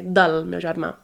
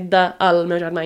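First: De and el merge into one word, del. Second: De and el are said as separate words. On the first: The speaker calls it right. "you say" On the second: The speaker calls it wrong. "You don't say"

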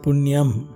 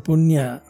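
First: The word ends in an m sound. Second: The word ends in a vowel. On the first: "And in the Tamil language, they call it as a punyam" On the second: "In the northern part, we call it as a punya"

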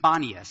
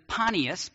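First: The name begins with a B sound. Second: The name begins with a P sound. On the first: This is the modern name of the place. "now it's pronounced Banias" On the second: This is the ancient name of the city. "then it was known as Panias"

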